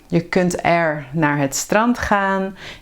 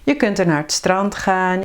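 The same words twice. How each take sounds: First: It is said slowly, each word separate. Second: It is said fast, with er joined on.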